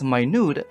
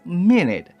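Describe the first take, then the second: First: The stress is on the second syllable. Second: The stress is on the first syllable. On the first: Something is very small in size. "if we are pertaining about the size of an object" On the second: It refers to a unit of time. "if you are referring about the time"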